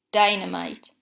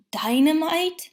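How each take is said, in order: First: Said in the usual way. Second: Higher, louder shocked question; alarmed cry. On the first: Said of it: "Gopher replied". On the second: A narrator's reading. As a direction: gasp it out in alarm. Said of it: "Pooh cried".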